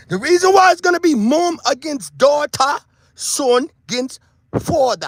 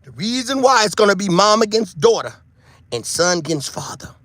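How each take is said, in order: First: Mock Jamaican patois lilt, stretched out; a light put-on Jamaican patois accent. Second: Said in the usual way. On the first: Shown as a demonstration. Vlogger to viewers, mock Jamaican patois. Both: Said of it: "I was trying to sound like I was speaking my patois".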